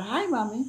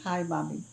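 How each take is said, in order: First: Imitating her son. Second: Mother repeating "hi, Mommy" back in disbelief, rising; puzzled, questioning the words "hi, Mommy"; incredulous echo. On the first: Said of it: "he comes and says". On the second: Real, not acted. Mother echoes her son's new English greeting in disbelief. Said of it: "What do you mean".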